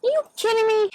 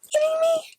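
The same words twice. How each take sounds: First: High, loud incredulous outburst; retold outrage. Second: Sharp high whisper of disbelief. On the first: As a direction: throw it out in disbelief. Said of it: "And I'm like". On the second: Real, not acted. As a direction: hiss it out in shock. Disbelief at old man.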